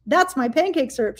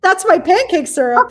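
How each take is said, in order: First: Said in the usual way. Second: Excited reveal. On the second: Retold or imitated. Reveal to friend who loves Switch.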